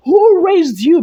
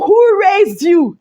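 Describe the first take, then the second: First: Louder, raised voice, full chest. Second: Mock angry retort. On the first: Real, not acted. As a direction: say it with your full chest, no apology. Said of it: "I said it with my full chest". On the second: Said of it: "Fina was like".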